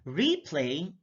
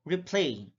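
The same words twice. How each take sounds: First: REplay, long REE; careful demo of REplay; stress on first syllable. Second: RePLAY, second syllable stressed; careful demo of rePLAY. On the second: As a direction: say "replay" as rih-PLAY. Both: Shown as a demonstration. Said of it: "stress is the verbal emphasis used".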